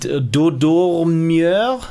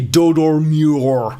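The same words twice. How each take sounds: First: The name is said with a French accent. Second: The name is said with an American accent. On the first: "when I'm trying to be very French" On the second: "if I'm trying to be very American"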